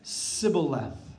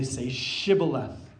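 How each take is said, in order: First: The word begins with an s sound. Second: The word begins with an sh sound. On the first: The speaker is an outsider. The speaker calls it wrong. "They could only say an S sound. So they said Sibboleth" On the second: The speaker belongs to the group. The speaker calls it right. "the Ephraimites could not say a SH sound"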